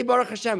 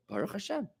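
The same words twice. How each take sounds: First: Said in the usual way. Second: Baruch Hashem said much softer, settled and calm; soft, peaceful Baruch Hashem; quiet accepting Baruch Hashem. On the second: Shown as a demonstration. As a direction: let "Baruch Hashem" drop gently, no fuss. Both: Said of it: "Say Baruch Hashem".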